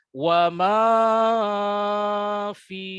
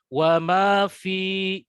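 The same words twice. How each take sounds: First: The vowels of 'ma' and 'fi' are drawn out. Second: No vowel is drawn out too long. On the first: The speaker calls it wrong. "Apalagi ma-nya panjang juga" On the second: The speaker calls it right. "cukup ya, panjangnya ayunannya diperhatikan"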